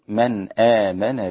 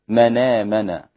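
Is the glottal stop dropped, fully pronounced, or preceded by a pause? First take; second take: full; dropped. First: The glottal stop is fully pronounced without pausing. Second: The glottal stop is dropped and the words merge. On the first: "عند تحقيق الهمزة للباقين" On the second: "هذه لورش ... نقلنا حركة الهمزة إلى الساكن قبلها"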